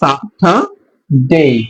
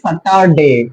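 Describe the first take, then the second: First: The t is aspirated, with a puff of air. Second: The t is plain, without a puff of air. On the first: The speaker calls it right. "টি এর উচ্চারণটাকে হবে এখন ঠ" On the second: The speaker calls it wrong. "আগে আমরা বলতাম কি স্যাটারডে, টি উচ্চারণ, টয়ের টি উচ্চারণ করতাম"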